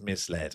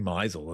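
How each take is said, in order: First: It sounds like 'mis' plus 'led'. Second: It sounds like a verb 'mizeled'. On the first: Investors were simply given wrong ideas. The speaker calls it right. "But maybe it was just misled" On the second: It suggests something financially dodgy. The speaker calls it wrong. "if you mispronounce misled, it does sound like something you could do"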